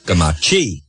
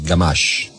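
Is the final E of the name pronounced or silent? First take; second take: pronounced; silent. First: The name ends with a pronounced final vowel. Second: The name ends without a final vowel sound. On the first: The speaker calls it wrong. "the one I get is Gamachi" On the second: The speaker calls it right. "No, it's Garmash. Silent E"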